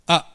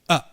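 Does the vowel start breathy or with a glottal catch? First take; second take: glottal; glottal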